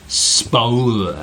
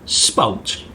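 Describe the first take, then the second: First: The word is stretched out and drawn long. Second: The word is said short and quick.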